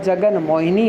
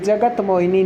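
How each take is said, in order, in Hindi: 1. पहला शब्द 'n' की आवाज़ पर खत्म होता है। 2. पहला शब्द 't' की आवाज़ पर खत्म होता है। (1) "जगन मोहिनी होता है" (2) "जगत मोहिनी नहीं होता"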